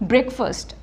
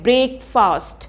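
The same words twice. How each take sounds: First: The second syllable is short with a reduced vowel. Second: The second syllable is stressed and stretched long. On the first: The speaker calls it right. "आपने फास्ट को फर्स्ट की तरह बोलना है" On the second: The speaker calls it wrong. "हम फास्ट पे बहुत ज़्यादा स्ट्रेस करते हैं और फास्ट को हम अक्सर स्ट्रेच करते हैं"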